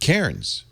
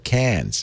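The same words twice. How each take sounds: First: It is said in a non-Australian way. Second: It is said the Australian way.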